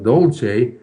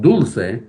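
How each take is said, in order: First: The first vowel sounds like 'oh'. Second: The first vowel sounds like 'oo'. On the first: The speaker calls it wrong. "the pronunciation is not dolce" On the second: The speaker calls it right. "but dulce"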